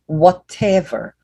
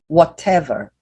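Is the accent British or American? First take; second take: British; British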